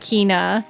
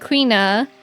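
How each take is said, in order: First: The name begins with a plain 'k' sound. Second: The name begins with a 'kw' sound. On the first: This is how everyone else says it. "everyone else saying Kina" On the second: This is how the speaker says it. "I also said Queena"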